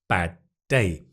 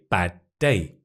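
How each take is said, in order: The two takes are said the same way.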